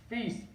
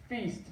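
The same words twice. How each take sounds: The two takes are said the same way.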